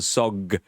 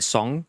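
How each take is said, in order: First: The word is said with a blocked, stuffy nose. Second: The word is said in a clear, normal voice. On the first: "when they've got a cold, and they go sog" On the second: "they say the word song"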